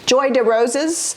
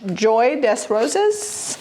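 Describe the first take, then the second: First: The s at the end of des is silent. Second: The s at the end of des is pronounced. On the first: The speaker calls it right. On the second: The speaker calls it wrong.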